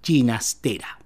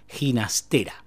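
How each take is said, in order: First: The G has a non-traditional, non-Spanish sound. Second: The G has the traditional Spanish sound. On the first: This is how the bearer of the name preferred it. "el compositor prefería usar el fonema G, renegando un poco de su forma castiza" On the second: This is the usual way the name is said. "Nosotros solemos pronunciar su apellido con el fonema G"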